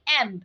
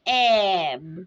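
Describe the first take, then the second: First: The blend is said quickly and clipped. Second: The blend is said slowly and drawn out. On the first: The speaker calls it wrong. "কখনোই অ্যাব এরকম বলা শেখাবো না" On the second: The speaker calls it right. "আমরা একটু illustrate করে বলবো"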